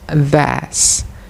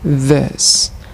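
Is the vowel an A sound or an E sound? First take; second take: A sound; E sound. First: The vowel is pronounced as an A sound. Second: The vowel is pronounced as an E sound. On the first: The speaker calls it wrong. "the learners pronounce it as this" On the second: The speaker calls it right. "this word should be pronounced this"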